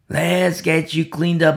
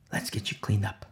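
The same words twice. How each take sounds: First: Said in the usual way. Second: Low, softened voice for Peter; hushed, gentle offer; soft quoted reassurance. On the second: Acted. Soft first take of Peter's words.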